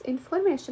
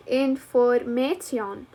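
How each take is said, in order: First: Said in the usual way. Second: "information" slowly, as in-for-may-ti-on, T and I sounded; read as spelled. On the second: Shown as a demonstration. Learner reading an unknown word, read as spelled. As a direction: sound out "information" in pieces, ending "ti-on" instead of "shun". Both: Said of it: "So you read it like".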